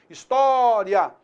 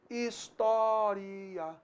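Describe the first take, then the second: First: The final 'ria' is said as one syllable. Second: The final 'ria' is split into two syllables. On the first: "ditongo crescente" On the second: "ele pode ser entendido também como um hiato"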